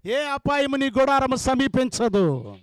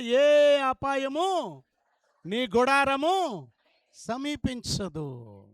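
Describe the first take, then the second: First: Loud proclamation. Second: Slow emphatic. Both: Acted. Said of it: "గట్టిగా చెప్పాలా?".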